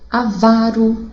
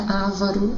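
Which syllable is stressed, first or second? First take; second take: second; first. First: The stress is on the second syllable. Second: The stress is on the first syllable. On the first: The speaker calls it right. "As paroxítonas" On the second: The speaker calls it wrong. "E não é ávaro"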